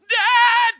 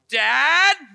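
First: It is screamed at full volume. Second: It is called out much louder.

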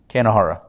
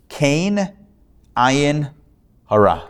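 First: The phrase is run together quickly as one word. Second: The phrase is said as three separate words. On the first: "a bit of a quick pronunciation of three words" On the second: "It comes from a Yiddish phrase"

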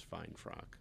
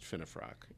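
First: The name is said with two syllables. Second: The name is said with three syllables. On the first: The speaker calls it wrong. "I introduced you as fine frock" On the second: The speaker calls it right. "It's pronounced finifrock"

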